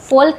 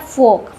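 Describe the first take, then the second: First: An L sound is heard before the K. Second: No L sound is heard before the K. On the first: The speaker calls it wrong. "फोल्क नहीं पढ़ते हैं" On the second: The speaker calls it right. "इसको पढ़ते हैं फोक"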